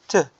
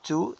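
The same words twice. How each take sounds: First: The word has a reduced schwa vowel. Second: The word has a full vowel. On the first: The speaker calls it right. "exchange it with schwa" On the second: The speaker calls it wrong. "Not to"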